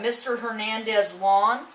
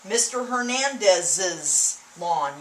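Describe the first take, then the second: First: The name has no extra syllable before lawn. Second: An extra syllable follows the name before lawn.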